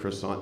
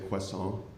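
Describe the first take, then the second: First: It is said with a plain American pronunciation. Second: It is said with a put-on French pronunciation. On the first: "instead of saying croissant" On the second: "they say croissant"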